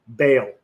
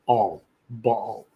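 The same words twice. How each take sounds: First: The word has a common English pronunciation. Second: The word has a Hebrew pronunciation. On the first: "as sometimes people pronounce it" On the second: "in Hebrew, you'd pronounce it"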